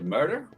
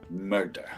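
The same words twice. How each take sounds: First: It is said in an American accent. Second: It is said in a Scottish accent.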